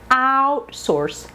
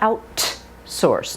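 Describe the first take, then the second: First: The T is released without a puff of air. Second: The T is released with a puff of air. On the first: The speaker calls it right. "No aspiration" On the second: The speaker calls it wrong. "Now notice it's not outsource"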